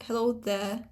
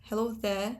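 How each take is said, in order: The two takes are said the same way.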